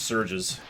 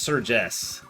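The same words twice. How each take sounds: First: It sounds like the plain plural of surge. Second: The E is sounded as its own separate part. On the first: "Like a plural of Surge" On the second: "like emphasizing the E separately"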